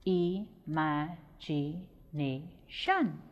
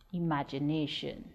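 First: "Imagination" very slowly in five separate syllables. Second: Said in the usual way. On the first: Shown as a demonstration. Teacher counting out syllables of "Imagination", slow and separated. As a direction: break "Imagination" apart with a pause after each syllable. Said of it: "five syllables in the word imagination". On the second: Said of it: "We get five syllables".

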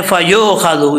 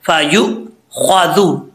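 First: "फ़ायु ख्वादु" with yu slackened to "yo"; "फ़ायु ख्वादु" said loosely, vowel sliding to o; wrong reading. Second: "फ़ायु ख्वादु" slowly, with short yu and heavy, full khwa; "फ़ायु ख्वादु", slow, the kha full-mouthed; correct reading. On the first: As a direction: demonstrate the mistake, "फ़ायु ख्वादु" run together as "fayo khado". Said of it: "ये गलत है।". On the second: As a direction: model "फ़ायु ख्वादु" in two careful parts. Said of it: "पुर पढ़ा जाएगा।". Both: Shown as a demonstration.

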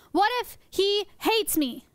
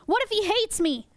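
First: Slow, high "What if he hates me", word by word; emphatic mock alarm. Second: High-pitched pretend worry; mock alarm. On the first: Presenter repeats "What if he hates me" for effect, slowly emphatic. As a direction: space out "he" and "hates" for drama. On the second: Presenter frets the sea cucumber hates her, mock alarm. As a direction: play up sudden worry.

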